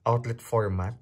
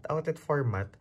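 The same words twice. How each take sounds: First: Said in the usual way. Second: "Outlet" lifted higher and stressed. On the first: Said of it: "Outlet format ng Europe". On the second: Shown as a demonstration. Vlogger correcting herself to viewers, stressing "Outlet" higher. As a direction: repeat it, leaning on "Outlet". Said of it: "ng Europe".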